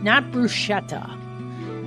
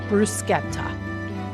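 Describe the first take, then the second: First: The middle consonant is a soft sh sound. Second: The middle consonant is a hard k sound. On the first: The speaker calls it wrong. "not bruschetta. That is not a thing" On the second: The speaker calls it right. "the C H in Italian ends up working like a K most times"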